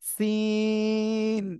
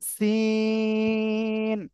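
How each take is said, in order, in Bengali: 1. এটি শুরু হয় হিসহিসে s ধ্বনি দিয়ে। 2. এটি শুরু হয় হিসহিসে s ধ্বনি দিয়ে।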